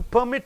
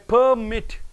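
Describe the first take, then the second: First: The stress is on the second syllable. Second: The stress is on the first syllable. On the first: It is a verb meaning to allow. "for the verbs you are stressing on the end syllable" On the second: It is a noun meaning a license. "the nouns you are stressing on the first syllable"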